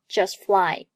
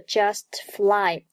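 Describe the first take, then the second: First: The t of just is not released. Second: The t of just is clearly released. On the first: The speaker calls it right. "而读作just fly" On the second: The speaker calls it wrong. "不读作just fly"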